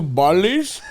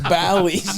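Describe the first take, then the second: First: It sounds like the island name 'Bali'. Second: It sounds like 'Bally', rhyming with 'alley'. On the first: The speaker calls it wrong. "Pronouncing it like that" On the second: The speaker calls it right. "Bally's, you fucking idiot"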